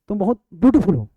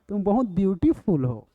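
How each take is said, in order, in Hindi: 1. शब्द बिना खींचे सीधे-सादे बोले जाते हैं। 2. स्वर को बहुत देर तक खींचा जाता है। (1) "तो वो मजा नहीं आएगा" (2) "इसमें मजा आएगा। वही प्लूत है।"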